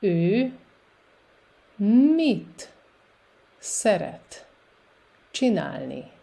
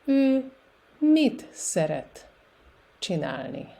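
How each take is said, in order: First: Very slow, a long gap after each word; slow repetition. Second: Careful demo with shorter pauses; a little bit faster. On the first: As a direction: dictate it word by word for beginners. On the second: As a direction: tighten the gaps, still measured for learners. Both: Shown as a demonstration. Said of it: "And a little bit faster".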